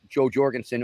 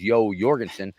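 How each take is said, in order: First: The first name has an English-style opening sound. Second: The first name has a Norwegian-style opening sound. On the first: The speaker calls it wrong. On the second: The speaker calls it right.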